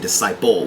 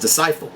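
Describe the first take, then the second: First: The middle consonant is a P sound. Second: The middle consonant is an F sound. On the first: "doesn't say disciple with a P" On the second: "He says disciple with an F"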